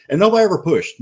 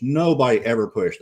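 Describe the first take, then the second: First: "nobody" punched high and loud; stress on nobody. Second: Said in the usual way. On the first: Real, not acted. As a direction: hit "nobody" hard, pitch way up. Emphatic repeat of a point.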